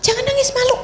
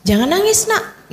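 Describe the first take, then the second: First: Much higher, put-on scolding parent voice; mother hushing her crying daughter, higher and scolding. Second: Put-on parent hushing child. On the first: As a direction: chide the girl not to cry, shaming her. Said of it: "Anak perempuan juga". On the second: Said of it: "kita nggak bolehin".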